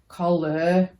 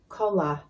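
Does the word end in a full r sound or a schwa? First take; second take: full r; schwa. First: The ending is a full, pronounced ar sound. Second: The ending is a short, weak uh sound. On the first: The speaker calls it wrong. "We don't say teacher, collar" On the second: The speaker calls it right. "things like teacher, collar"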